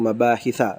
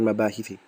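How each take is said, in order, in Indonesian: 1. Kata ini berakhir dengan vokal 'a'. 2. Kata ini berakhir dengan vokal 'ee'.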